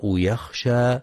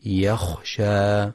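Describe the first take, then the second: First: يخشى with the kha softened toward ghayn; wrong soft kha. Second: يخشى with a clear, rasped kha, slowly. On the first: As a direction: say يخشى almost like يغشى. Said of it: "يخطئ من يقرأ". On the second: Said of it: "والصواب تحقيق الخاء". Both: Shown as a demonstration.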